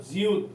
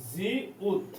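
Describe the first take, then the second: First: Said in the usual way. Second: "জিউত" split slowly into জি, then উত; syllable by syllable. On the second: Shown as a demonstration. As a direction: stretch the first syllable of "জিউত", pause, then উত. Teacher breaks up letter name. ("জিউত" ভেঙে ভেঙে, জি... উত)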